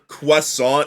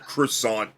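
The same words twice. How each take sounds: First: It is said with a mock French pronunciation. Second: It is said with a plain English pronunciation. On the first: The speaker calls it wrong. "sounds like you're making fun of like the French accent" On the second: The speaker calls it right. "sounds better"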